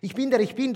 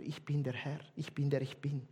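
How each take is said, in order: First: "der" lifted, louder and higher with a rising tune; emphatic repeat. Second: Quiet solemn recitation; hushed reverent reading. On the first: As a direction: proclaim it to the congregation. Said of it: "das heisst". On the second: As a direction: softly read as scripture, low and quiet. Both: Shown as a demonstration.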